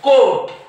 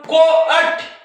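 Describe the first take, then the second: First: The vowel is a single long o sound. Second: The vowel is split into two sounds, o-at. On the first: The speaker calls it right. "फक्त येचा उच्चार न करता ओचा उच्चार करायचा" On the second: The speaker calls it wrong. "असं वाचणार का आपण कोअट किंवा कोॲट नाही"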